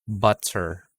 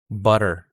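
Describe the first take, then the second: First: The middle T is a clear, full T. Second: The middle T is a quick tongue flap. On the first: It sounds less native or American. "when I use a normal T sound" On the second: It sounds more native or American. "let's go to the T as a flap"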